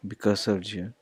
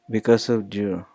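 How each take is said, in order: First: "Because of you" repetido mucho más suave; repítelo casi en voz baja; softer repeat. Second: "Because of you" con "of" marcado; stress on you. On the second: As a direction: golpea "of" y baja al final. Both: Shown as a demonstration. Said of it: "we also have the R".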